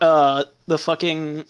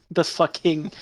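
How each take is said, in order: First: Said in the usual way. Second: Breaking into laughter mid-word; can't keep a straight face; laughing. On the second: Real, not acted. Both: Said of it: "I can't even say it with a straight face".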